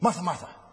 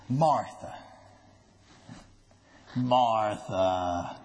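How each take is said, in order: First: The two names run together without a pause. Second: There is a pause between the two names.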